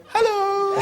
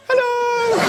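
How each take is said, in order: First: Very high, stretched squeak of hello; squeaky hello. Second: Very high, bright hello; squeaky hello. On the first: Caught crawling from under the bed, squeaky high hello. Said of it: "I just looked at her and went". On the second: Girl caught in bed answering, very high hello. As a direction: chirp it back high. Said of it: "she looked at me and went". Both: Retold or imitated.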